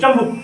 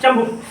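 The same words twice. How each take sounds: First: The word is said in the rustic form chambuk. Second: The same.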